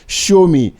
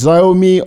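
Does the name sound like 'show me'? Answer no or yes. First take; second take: yes; no. First: It sounds like 'show me'. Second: It does not sound like 'show me'. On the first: The speaker calls it right. "the correct pronunciation is Xiaomi. The closest English phrase to remember this is show me" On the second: The speaker calls it wrong. "If you have been pronouncing this word as Xiaomi or anything else"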